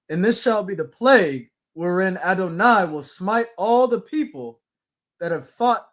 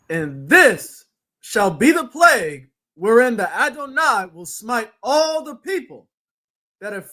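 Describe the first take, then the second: First: It is read in a plain, normal way. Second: It is read strongly, with feeling.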